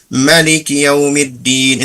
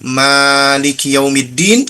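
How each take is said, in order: First: The vowel after the M is kept short. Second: The vowel after the M is held long. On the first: Owner of the Day of Judgement. "atau pendek" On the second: Ruler of the Day of Judgement. "mimnya panjang"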